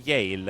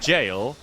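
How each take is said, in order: First: The word begins with a Y sound. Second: The word begins with a J sound. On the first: "they say he he went to Yale" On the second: "somebody goes to jail"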